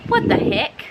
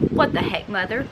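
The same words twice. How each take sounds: First: High breathless exasperated what the heck; unvoiced, high-pitched outrage. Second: Said in the usual way. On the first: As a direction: gasp it out in disbelief. Annoyed at mom dumping coffee.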